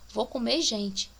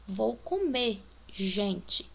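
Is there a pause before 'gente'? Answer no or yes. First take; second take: no; yes. First: It is said with no pause before 'gente'. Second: It is said with a pause before 'gente'.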